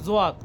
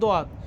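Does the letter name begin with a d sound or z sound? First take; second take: z sound; d sound. First: The name begins with a z sound. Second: The name begins with a d sound. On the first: This is how it is said in Urdu. "উর্দুতে হবে কি জোয়াত" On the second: This is how it is said in Arabic. "আমরা আরবিতে বলি দোয়াত"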